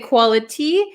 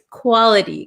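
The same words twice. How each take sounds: First: The T is a clear, fully released T. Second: The T is a quick flap, like a soft D. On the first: "we can say quality" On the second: "So this becomes a flap T"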